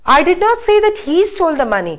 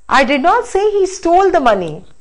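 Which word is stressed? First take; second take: he; stole. First: The word he is stressed. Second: The word stole is stressed. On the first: Somebody else stole it. "I said that somebody else stole, not he" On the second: It was borrowed, not stolen. "he borrowed it"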